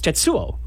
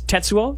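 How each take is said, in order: First: The stress is not on the first syllable. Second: The stress is on the first syllable. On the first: "which is not" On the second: "so it's stress on the first syllable"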